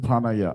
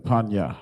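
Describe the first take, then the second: First: It is said with three syllables. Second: It is said with two syllables. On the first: The speaker calls it wrong. "that's another one I've heard brothers say" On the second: The speaker calls it right. "I mean Panya"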